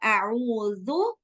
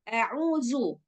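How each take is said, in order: First: The consonant is soft, without any hissing. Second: The consonant is pronounced with a strong hiss. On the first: The speaker calls it right. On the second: The speaker calls it wrong.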